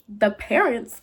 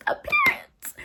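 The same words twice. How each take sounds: First: Said in the usual way. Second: THE PARENTS in a very high squeak; tiny high-pitched "The parents", for dramatic effect; squeaky dramatic repeat. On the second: Shown as a demonstration. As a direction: squeal "The parents" far above your usual voice.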